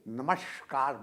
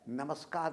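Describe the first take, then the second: First: The middle consonant is a palatal sh sound. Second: The middle consonant is a dental s sound. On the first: "तालव्य श बोलते सुना है" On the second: "वास्तव में वो है आपका स है, दंत स।"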